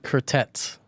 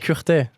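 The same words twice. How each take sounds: First: The final T sound is pronounced. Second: The final T sound is silent. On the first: The speaker calls it wrong. "That's not my name" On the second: The speaker calls it right. "My name is Curtet"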